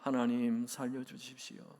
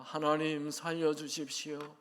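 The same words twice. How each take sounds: First: It is said in a somewhat louder voice. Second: It is said in the loudest voice yet. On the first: "조금 더 큰 소리로" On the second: "조금 더 큰 소리로"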